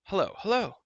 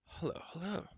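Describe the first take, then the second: First: Loud, higher call into the dark; loud echoing hello; shouting call. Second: Soft, faint, half-conscious greeting; quiet dazed murmur. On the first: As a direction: call out across the cavern. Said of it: "he shouted once more". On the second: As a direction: murmur it as if just waking. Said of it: "he murmured". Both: A narrator's reading.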